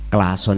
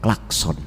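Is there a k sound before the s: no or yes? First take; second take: no; yes. First: The word is said without a k before s. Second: The word is said with a k before s.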